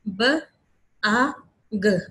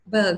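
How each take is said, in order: First: Each sound is said separately with clear gaps. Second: The sounds are blended into one word. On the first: "पहले step में हमने बिल्कुल अलग अलग differentiate करके बोली है" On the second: "अगले में आपने इस तरह बोला साथ के"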